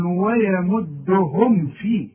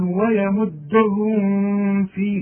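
First: ويمدهم فيه slowly with a clean meem; no nasal hum on the meem; no ghunna. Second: ويمدهم فيه with a wrong nasal hum on the meem; the mistaken humming meem; wrong ghunna. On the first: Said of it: "ما عنديش غنة". (ويمدهم فيه بدون غنة) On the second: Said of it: "اوعى تقولها". (ويمدهم فيه بغنة غلط) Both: Shown as a demonstration.

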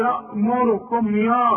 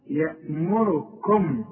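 First: يأمركم with a thick, broad "yaa", pitched up; exaggerated thick "ya" on يأمركم; wrong heavy ya. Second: يأمركم very slow, with a light, fronted "ye"; slow, light-vowelled يأمركم; thinned ya. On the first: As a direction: mimic the mistake with a heavy first vowel in يأمركم. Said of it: "ما أنت بتقول لي". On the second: Shown as a demonstration. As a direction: keep the first vowel of يأمركم thin. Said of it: "رقق يا راجل".

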